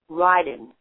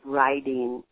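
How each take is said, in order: First: The final sound of the word is dropped. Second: The final sound of the word is fully pronounced. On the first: The speaker calls it wrong. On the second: The speaker calls it right.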